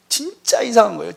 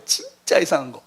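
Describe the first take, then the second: First: Said in the usual way. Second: Quiet echo. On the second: Real, not acted.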